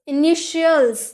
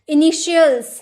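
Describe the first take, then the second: The two takes are said the same way.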